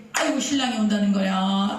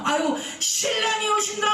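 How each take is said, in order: First: Said in the usual way. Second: High, urgent call that the groom is coming; sudden high call of alarm; excited cry. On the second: Acted. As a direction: shout it out like announcing an arrival. Bridesmaids crying out groom comes.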